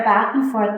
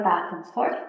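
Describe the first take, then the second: First: Said in the usual way. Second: "back and forth" dropped soft and lower; fading softly. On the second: Shown as a demonstration. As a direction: let "back and forth" fade out. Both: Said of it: "the palms of the hands will rub together".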